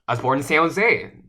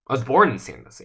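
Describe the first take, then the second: First: The words San Jose are stressed. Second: The word born is stressed. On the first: It was this city, not another one. "not San Francisco, not somewhere else, not Fremont" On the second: The speaker is a native, not a newcomer. "I'm a native, not a newcomer"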